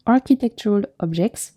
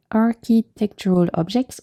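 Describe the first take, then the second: First: Light French accent on architectural objects; playful mock French accent. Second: Said in the usual way. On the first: Shown as a demonstration. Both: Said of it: "try and say that with a French accent".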